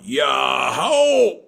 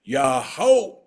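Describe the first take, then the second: First: Full loud group shout; crowd shout. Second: A call to push, loud; elder calling out the word; old man's yell. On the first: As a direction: shout it back like the whole village. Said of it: "And the people all went". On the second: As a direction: lead the crowd with one shout. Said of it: "and the old man yelled out". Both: Acted.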